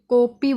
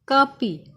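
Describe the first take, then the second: First: The first vowel is an 'o' sound. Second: The first vowel is an 'aa' sound. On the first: The speaker calls it wrong. "ओ की वजह से कॉपी बोला जाता है" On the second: The speaker calls it right. "इसका सही तरीका लिखने का है काफ अलिफ"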